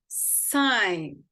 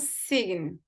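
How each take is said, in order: First: No g sound is heard before the n. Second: A g sound is heard before the n. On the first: The speaker calls it right. "Esse G também, ele não é pronunciado" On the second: The speaker calls it wrong. "Não sign"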